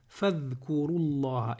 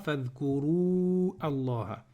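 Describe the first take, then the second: First: The words are linked and the long vowel drops. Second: The words are separate and the long vowel stays. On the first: The speaker calls it right. "Je vais dire fadhkurullah directement" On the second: The speaker calls it wrong. "et pas fadhkuru Allah"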